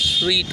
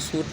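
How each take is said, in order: First: The word sounds like 'sweet', with an ee vowel. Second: The word sounds like 'suit', with an oo vowel. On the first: The speaker calls it right. "स्वीट पढ़ते हैं" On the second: The speaker calls it wrong. "लेकिन सूट नहीं पढ़ते"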